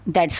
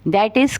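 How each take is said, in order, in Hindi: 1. शब्द छोटे होकर एक संकुचन बन जाते हैं। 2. हर शब्द पूरा बोला जाता है।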